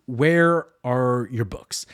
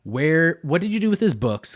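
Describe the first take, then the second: First: Slowed right down, each word weighed; slow pointed question. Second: Sudden higher, louder alarmed ask; alarmed question. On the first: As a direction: drag it out like an accusation. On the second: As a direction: blurt it out, alarmed. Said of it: "she starts questioning". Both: Retold or imitated.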